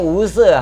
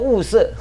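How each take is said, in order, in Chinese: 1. 第一个音节是第二声，升调。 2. 第一个音节是第四声，降调。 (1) "那我们一念无色哈、哦，那你又搞错了" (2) "应该念第四声，哦。那么应该是空中物色"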